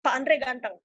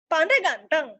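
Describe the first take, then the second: First: Matter-of-fact statement, "ganteng" falling; plain declarative with no lift on "ganteng". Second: Surprised-sounding query on "ganteng"; questioning. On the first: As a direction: state it evenly, closing down on "ganteng". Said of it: "Ada yang maknanya tuh pernyataan". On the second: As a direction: question tune rising into "ganteng". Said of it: "ada yang pertanyaan". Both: Shown as a demonstration.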